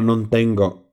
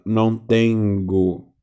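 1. Soa como espanhol nativo, natural. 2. Soa como espanhol com sotaque brasileiro. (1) "Ela não fala não tengo" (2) "ela fala não tengo"

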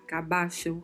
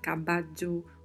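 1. O duplo L soa como ch. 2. O duplo L soa como dj. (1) "um som de CH" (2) "um som de DJ"

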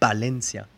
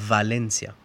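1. La palabra empieza con sonido b. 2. La palabra empieza con sonido v. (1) "Dicen Barcelona y Valencia" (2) "Y yo diría Valencia"

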